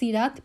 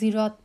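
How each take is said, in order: First: The word begins with an s sound. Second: The word begins with a z sound. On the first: "সদকে সিন দিয়ে রিপ্লেস করা হয়েছে" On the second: "যেটা জা জা দিয়ে রিপ্লেস করা হয়েছে"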